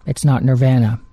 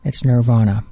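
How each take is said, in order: First: "Nirvana" with a short flat A in the middle, as in van; mispronounced band name. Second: "Nirvana" with an open AH in the middle; correct band name. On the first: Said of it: "[name] used to say". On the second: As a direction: say Nirvana the right way, middle syllable like "vah". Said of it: "I pronounced the band's name right". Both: Shown as a demonstration.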